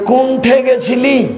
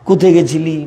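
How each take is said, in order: First: A heavy Chapainawabganj dialect with an added nasal sound. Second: A lighter Bogura dialect with fewer sounds.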